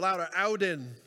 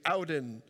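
First: The word is said at louder volume. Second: The word is said at normal, softer volume.

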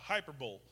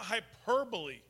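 First: It is said in a mock Arkansas accent. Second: It is said in a standard accent.

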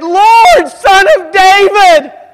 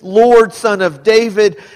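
First: It is cried out with anguish. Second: It is read flatly, in a monotone.

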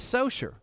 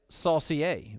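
First: The name is said with a plain English ending. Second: The name is said with a French-sounding ending. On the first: The speaker calls it right. "This is Socher" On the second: The speaker calls it wrong. "which sounds a little French"

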